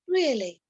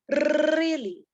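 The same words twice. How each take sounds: First: The R sound is pronounced softly. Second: The R sound is pronounced strongly. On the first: This is how others want it said. "pronounce my R softer and pronounce it like really" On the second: This is the speaker's own dialect. "I should not pronounce my R and say really"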